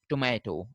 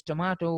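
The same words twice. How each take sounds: First: "tomato" said to-MAY-to, fronted vowel; American pronunciation. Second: "tomato" said to-MAH-to; British pronunciation. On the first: Teacher showing the Americans' form, "tomato" with fronted a. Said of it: "while for the Americans". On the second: Teacher showing the Britishers' form, "tomato" with ah. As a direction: open the middle of "tomato" to ah. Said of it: "For the Britishers". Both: Shown as a demonstration.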